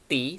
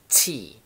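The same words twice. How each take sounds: First: The T is plain, without a hissing breath. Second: The T is breathy with a hissing release. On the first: The speaker calls it wrong. "bukan T" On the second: The speaker calls it right. "agak basah atau mendesis"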